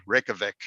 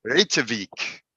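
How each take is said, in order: First: Reykjavik said the plain American way, RECK-ya-vick; easy tourist Reykjavik. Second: Reykjavik said the Icelandic way, RAY-tya-veek; careful native-style Reykjavik. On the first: Telling typical Americans the easy version, Anglicized pronunciation. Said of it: "if you're like a typical American". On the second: Teaching Toastmasters the city name, Icelandic pronunciation. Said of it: "here's how to say it". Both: Shown as a demonstration.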